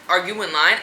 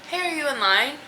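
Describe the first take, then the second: First: It is asked in a rude, confrontational tone. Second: It is asked in a relaxed, casual tone.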